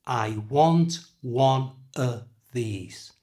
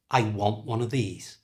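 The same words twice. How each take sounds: First: Slow, every word separated; slow demo. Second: Said in the usual way. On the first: Shown as a demonstration. Teacher letting learners hear the weak "of", said slowly. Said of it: "Did you hear it?". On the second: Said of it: "but in a sentence".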